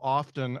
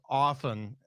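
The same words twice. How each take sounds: First: The T in the middle is pronounced. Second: The T in the middle is silent. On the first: "they started pronouncing the T in often. Like" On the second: "it's often with no T"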